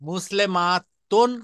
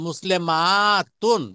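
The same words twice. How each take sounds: First: The vowel before the last syllable is short. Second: The vowel before the last syllable is drawn out. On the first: It refers to one woman. "এই ছোট তা ছিল, মারবুতা তা বলে।" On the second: It refers to many women. "এটাকে টান দিয়ে সমান করে একটা আলিফ দিয়ে দেওয়া হয়েছে"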